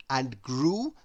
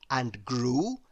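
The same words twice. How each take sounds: The two takes are said the same way.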